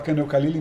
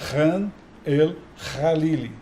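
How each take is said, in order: First: The kh is said as a hard k. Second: The kh is said as a throaty r. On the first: The speaker calls it wrong. "a gente fala Khan Khalili" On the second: The speaker calls it right. "vocês têm que falar como se tivesse dois R's"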